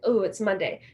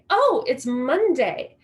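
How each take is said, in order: First: It is said in a gloomy, dreading tone. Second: It is said in a cheerful, upbeat tone.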